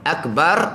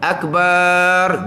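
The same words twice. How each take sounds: First: The second vowel of Akbar is short. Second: The second vowel of Akbar is drawn out long. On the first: Most great. The speaker calls it right. "Akbar maha besar" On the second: A drum. The speaker calls it wrong. "Akbar gedung"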